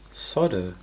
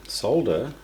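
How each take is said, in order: First: "solder" without the L, SAW-der; solder with silent L. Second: "solder" with an audible L, SOLE-der; solder with the L sounded. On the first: Vlogger showing the other way people say it, "solder" with silent L. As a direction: drop the L in "solder", saying sodder. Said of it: "some people say solder". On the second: Vlogger showing how some people say it, "solder" with the L. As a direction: say "solder" with the L pronounced. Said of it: "Some people say solder". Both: Shown as a demonstration.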